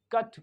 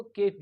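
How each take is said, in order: First: "कट" with a short 'uh'; "कट" as 'kuht', short vowel; right ending demo. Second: "केट" with a long 'ay'; "केट" as 'kayt', full vowel; wrong ending demo. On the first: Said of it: "कट पढ़ते हैं". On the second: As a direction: say "केट" like English "Kate". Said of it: "केट नहीं पढ़ते". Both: Shown as a demonstration.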